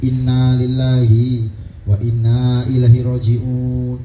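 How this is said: The pitch falls low through the phrase. Deaths were rare and came as news.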